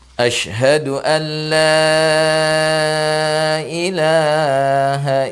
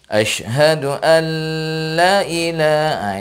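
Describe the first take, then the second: First: The vowel in 'la' is held long. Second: The vowel in 'la' is cut short. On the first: The speaker calls it right. "la itu panjangnya empat harokat" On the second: The speaker calls it wrong. "bukan dipendekkan"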